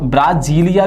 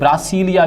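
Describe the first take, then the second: First: The middle consonant is a z sound. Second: The middle consonant is an s sound. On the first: "capital वो ब्राजीलिया भी बोल देते हैं कई लोग" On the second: "कई लोग इसे ब्रासीलिया भी बोल देते हैं"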